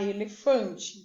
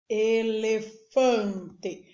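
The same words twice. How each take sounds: First: Said in the usual way. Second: Elefante very slow, e-le-fan-te in four beats; syllable by syllable. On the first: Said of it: "pra falar elefante". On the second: Shown as a demonstration. Teacher counting mouth openings for pupils, elefante syllable by syllable. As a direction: sound out elefante slowly, each syllable separate. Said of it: "Eu abro a boca quatro vezes pra falar elefante".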